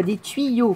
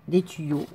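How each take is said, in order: First: "tuyaux" slowed and raised, with a clear "tui-yo"; careful correction. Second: "tuyaux" said as "ti-yo", dropping the u glide; country slip, "tuyaux" squashed to "ti-yo"; rustic slip. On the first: Shown as a demonstration. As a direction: correct yourself with a drawn-out "tuyaux", u glide sounded. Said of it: "pardon. Pas des tuyaux". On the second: Real, not acted. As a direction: say "tuyaux" without its u, as "ti-yo". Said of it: "mon accent bouseux".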